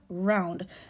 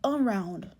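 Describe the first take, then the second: First: The first syllable is dropped, one syllable. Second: The word is said in full, two syllables. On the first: "we drop that A and we have round" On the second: "the full word being around"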